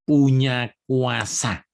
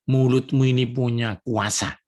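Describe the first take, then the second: First: Slow, heavy "Punya kuasa"; emphatic repeat. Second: Said in the usual way. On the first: Shown as a demonstration. Preacher stressing to the congregation "Punya kuasa", slow.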